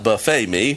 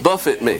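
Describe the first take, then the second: First: The word buffet ends with an 'ay' sound. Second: The word buffet ends with an 'it' sound. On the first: A self-served spread of food. The speaker calls it wrong. "Not buffet me, amen, like good Baptist" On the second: To be struck or beaten. The speaker calls it right. "Buffet me means to literally beat me"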